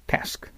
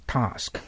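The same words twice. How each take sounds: First: タスク with a flat "ae" vowel, American style; American pronunciation. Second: タスク with a long open "ah", British style; British pronunciation. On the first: Teacher contrasts it with the British take, American pronunciation. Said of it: "アメリカの発音が". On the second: Teacher models Emma's pronunciation for Japanese students, British pronunciation. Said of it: "英国の発音、エマさんの発音の方が". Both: Shown as a demonstration.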